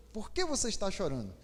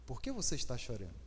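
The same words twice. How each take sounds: First: Said in the usual way. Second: Much softer and lower, gently asking; soft tender question. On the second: Shown as a demonstration. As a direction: ask it tenderly, almost under the breath. (pergunta suave e terna) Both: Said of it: "Deu pra entender?".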